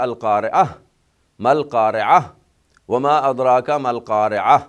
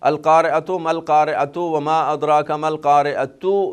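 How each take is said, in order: First: Each key word ends with an 'ah' sound. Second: Each key word ends with a 'tu' sound. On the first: The reader stops on each word. "अगर वहाँ रुकेंगे, स्टॉप करेंगे, वक्फ करेंगे" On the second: The words are read without stopping. "यहाँ तो सारी ता है ना"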